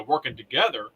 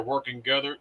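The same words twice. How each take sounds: First: Said in the usual way. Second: "working together" with the "to" swallowed, like "working gether"; tongue slip. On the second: Real, not acted. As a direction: stumble on "working together", dropping the first syllable of "together". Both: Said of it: "That was easy for you to say".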